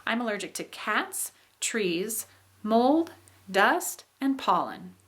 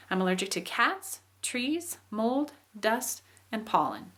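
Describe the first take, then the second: First: Each item rising, the last falling; listing intonation. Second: Items rise, pollen comes down to close the list; list falling at end. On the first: Teacher demonstrates a list, rising then falling. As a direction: rise on cats, trees, mold, dust, fall on and pollen. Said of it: "we use this for lists". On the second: Teacher shows how the list's end falls. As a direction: lift each item, let pollen fall. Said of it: "on the last one ... I came down and I ended it". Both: Shown as a demonstration.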